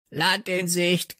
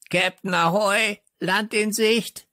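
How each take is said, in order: First: Higher, slow squawked "Land in Sicht"; croaking parrot. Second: Croaking parrot. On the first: Parrot announces land, slow high croak. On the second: Parrot calls to Captain Floh, high croaking squawk. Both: A narrator's reading. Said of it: "krächzte Störtebeker".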